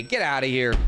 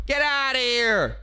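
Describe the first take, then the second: First: Said in the usual way. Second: Higher, slower get outta here. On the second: Shown as a demonstration.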